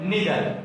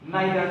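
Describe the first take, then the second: First: The first vowel sounds like 'ee'. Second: The first vowel sounds like 'eye'.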